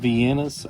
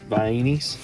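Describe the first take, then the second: First: The word ends in an 'uh' sound. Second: The word ends in an 'ee' sound. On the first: This is how other people say it. "Some people say Viennas" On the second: This is how the speaker says it. "I say Vainis as well"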